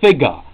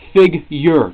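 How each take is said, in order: First: The word ends with an 'ah' sound. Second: The word ends with an 'er' sound. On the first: The speaker calls it wrong. "If it was figa, it would be F I G A H" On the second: The speaker calls it right. "It's figure"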